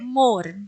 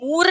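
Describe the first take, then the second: First: The vowel is an open, spread 'o' sound. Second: The vowel is a long 'oo' sound. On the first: The speaker calls it right. "मोर कह रहे" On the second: The speaker calls it wrong. "मूर नहीं कह रहे ना"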